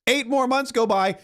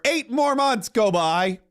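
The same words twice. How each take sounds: First: Said in the usual way. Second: Eight more months go by, slow, with the word more stressed; slow emphasis. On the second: Acted. Drives the point home.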